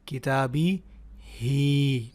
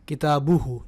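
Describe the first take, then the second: First: An i follows the b, then a long i. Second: A u follows the b, then a short u. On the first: The speaker calls it right. "बल्कि खड़ी जेर होगी" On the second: The speaker calls it wrong. "ना ही आप कहोगे किताबू हु, नहीं।"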